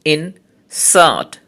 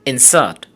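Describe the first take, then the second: First: Insert split into two syllables with a pause. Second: Said in the usual way. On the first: Shown as a demonstration. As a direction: say insert in two separate beats. (insert দুই সিলেবলে ভেঙে থেমে থেমে) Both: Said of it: "disyllabic words".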